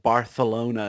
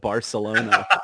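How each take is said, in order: First: The 'c' is said with a lisp, like 'th'. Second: The 'c' is said as a plain 's'. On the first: This is the prince's way of saying it. "saying Barcelona" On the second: This is the usual way of saying it. "instead of Barcelona"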